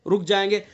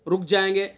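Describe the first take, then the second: The two takes are said the same way.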